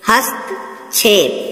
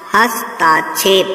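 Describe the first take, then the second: First: No long vowel follows hast. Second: A long aa vowel follows hast. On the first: The speaker calls it right. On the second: The speaker calls it wrong.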